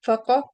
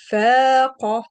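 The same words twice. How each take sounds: First: Said in the usual way. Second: فاق with the alif held two beats; long vowel. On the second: Shown as a demonstration. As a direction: stretch the a in فاق. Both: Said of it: "You see the difference?".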